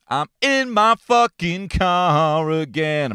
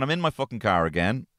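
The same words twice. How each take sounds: First: Higher and slow, stretching every word in mock despair; exasperated drawn-out repeat. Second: Said in the usual way. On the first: Shown as a demonstration. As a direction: drag it out like a weary lament. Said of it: "repeats the line performed". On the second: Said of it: "repeats it drawn out".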